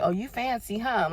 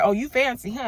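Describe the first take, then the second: First: Playful tease back. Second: Louder teasing "Oh, you fancy"; teasing mock. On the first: Retold or imitated. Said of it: "And I'm looking at God like". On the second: Friends teasing her about living in Buckhead, loud playful ribbing. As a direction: rib her like a friend impressed by money. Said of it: "y'all looking at me like".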